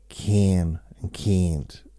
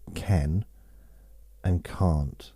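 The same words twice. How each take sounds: First: Can and can't sound nearly the same. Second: Can and can't have clearly different vowels. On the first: "in a different accent, can and can't. It's kind of it's sounds very similar" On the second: "here we say can and can't"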